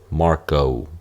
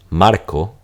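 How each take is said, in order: First: The final O glides as a diphthong. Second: The final O is a single pure vowel. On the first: "That O, that's a diphthong" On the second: "instead of saying Marco"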